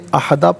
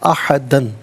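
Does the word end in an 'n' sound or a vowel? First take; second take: vowel; n sound. First: The word ends with a long 'a' vowel. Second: The word ends with an 'n' sound. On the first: The reciter stops at this word. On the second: The reading continues without stopping.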